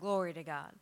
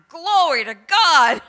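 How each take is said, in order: First: It is said calmly, with little energy. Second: It is said excitedly, with much energy.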